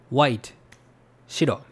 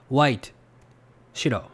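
Both takes have the same delivery.

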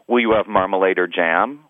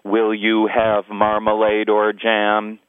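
First: The pitch moves up and down throughout. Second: The pitch stays level the whole way through. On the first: "You can say it 100 different ways" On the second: "I'll first say it in monotone"

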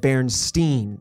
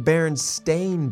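First: The last syllable is said like 'stein'. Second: The last syllable is said like 'stain'. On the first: This is the remembered, mistaken version of the name. The speaker calls it wrong. "I always thought of it as Berenstain. That's how I always pronounced it" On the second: This is the actual version of the name. The speaker calls it right. "it's actually the Berenstain Bears"

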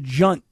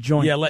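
First: The vowel sounds like the u in 'hunt'. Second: The vowel sounds like the oi in 'point'. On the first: The speaker calls it wrong. "I was saying it wrong. I was calling it a junt" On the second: The speaker calls it right. "instead of a joint"

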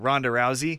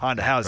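First: Both words begin with an R sound. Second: Both words begin with an H sound.

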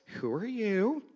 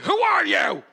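First: The question is asked in a worried tone. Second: The question is asked in an angry tone. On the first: You may have walked into the wrong house. "If someone asks you with a concerned voice" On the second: You are probably in trouble. "If someone asks you angrily"

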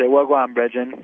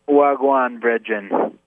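First: The phrase is said at normal conversational speed. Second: The phrase is said slowly and deliberately.

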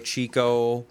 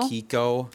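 First: The word begins with a 'ch' sound. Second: The word begins with a 'k' sound. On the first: This is how most people read the name. The speaker calls it wrong. "everyone's going to read it as Chico" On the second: This is how the brand is actually pronounced. The speaker calls it right. "You don't pronounce it. Kiko"

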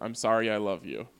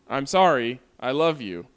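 First: There is no pause after "sorry". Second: There is a pause after "sorry".

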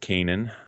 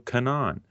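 First: The last syllable does not rhyme with Han. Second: The last syllable rhymes with Han. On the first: The speaker calls it right. "much different than what we had expected" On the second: The speaker calls it wrong. "Kanan rhymes with Han"

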